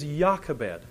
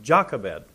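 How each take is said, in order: First: The name begins with a Y sound. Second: The name begins with a J sound. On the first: The speaker calls it right. "The name is Jochebed. ... There was no J sound" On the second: The speaker calls it wrong. "It's not"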